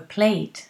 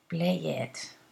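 First: The ending is a strong t sound. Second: The ending is an extra syllable. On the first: The speaker calls it right. "like with a T" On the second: The speaker calls it wrong. "Not play it"

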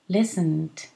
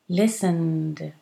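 First: The ending is pronounced as a T sound. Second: The ending is pronounced as a D sound. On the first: "But you can say listened" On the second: "the ed is pronounced as a d"

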